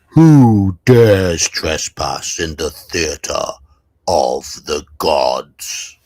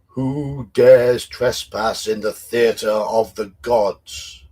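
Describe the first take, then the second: First: It is said in a very booming voice. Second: It is said in a mildly booming voice.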